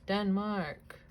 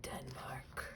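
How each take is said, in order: First: "Denmark" said oddly, drawn out with a falling tune; a goofy, deliberate "Denmark". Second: "Denmark" whispered, unvoiced and much softer. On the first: Saying the country name in a silly way to herself. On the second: Whispering the country name to herself while reading. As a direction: breathe "Denmark" under the breath. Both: Real, not acted. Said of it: "I don't know why I said it like that".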